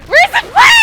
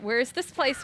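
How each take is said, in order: First: Much higher, loud, shrill shriek; shrieked question. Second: Said in the usual way. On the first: Real, not acted. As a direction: shriek it in disbelief. Repeating the line, then shrieking it.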